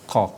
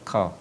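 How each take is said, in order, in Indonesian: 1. Konsonannya dalam dengan lidah yang terangkat. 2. Konsonannya ringan, seperti k. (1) "ketika penyebutannya itu mengangkat lidah ya, hurufnya terangkat" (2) "Tidak boleh dibaca qa"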